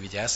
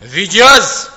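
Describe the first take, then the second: First: It is said with an ordinary, plain intonation. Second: It is said with a distinctive command intonation. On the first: The speaker calls it wrong. "azt nem így mondta" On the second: The speaker calls it right. "hanem vigyázz! ... minden parancsnak megvolt a maga hanglejtése"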